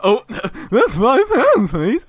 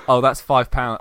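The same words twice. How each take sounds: First: High, loud, slow, laughing voice crack; mock voice break. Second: Said in the usual way. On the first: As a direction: crack your voice on purpose to make fun of yourself. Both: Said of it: "I'd be like".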